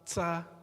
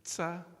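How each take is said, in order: First: The consonant has a hissing s-like release. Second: The consonant has a hissing s-like release.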